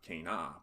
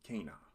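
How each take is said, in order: First: The stress is on the second syllable. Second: The stress is on the first syllable. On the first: The speaker calls it wrong. "So this is not cana" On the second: The speaker calls it right. "Latin accents the second to last syllable"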